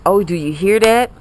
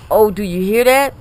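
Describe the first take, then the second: No difference in how they are said.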